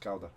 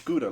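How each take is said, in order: First: Gouda said the Dutch way, opening on a throaty G and rhyming with HOW-da. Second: Gouda said the English way, GOO-da, like the cheese. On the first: Correcting a friend on the Dutch name, throaty Dutch Gouda. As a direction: put the Dutch sound into Gouda, throaty start and HOW vowel. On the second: Telling a friend how English speakers say the cheese, plain GOO-da. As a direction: give Gouda the everyday English GOO-da sound. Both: Shown as a demonstration. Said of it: "but it's pronounced Gouda".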